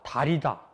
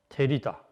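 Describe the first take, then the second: First: The first vowel is an open a. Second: The first vowel is a fronted ae.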